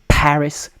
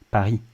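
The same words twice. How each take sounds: First: The P is hit hard with a puff of air. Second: The P is soft with no puff of air. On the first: "You have that h sound" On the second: "We say Paris"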